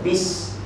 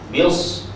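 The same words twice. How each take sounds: First: The s sound is light and plain. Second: The s sound is heavy and emphatic. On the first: The speaker calls it right. "patut bis" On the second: The speaker calls it wrong. "sin bunyi, sad pula"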